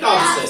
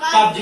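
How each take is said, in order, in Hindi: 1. शब्द का अंत s ध्वनि से होता है। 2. शब्द का अंत z ध्वनि से होता है। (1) "साधारण जो हमको मालूम है वो कब्ज से पढ़ लेंगे" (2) "वहां जा का उच्चारण होगा"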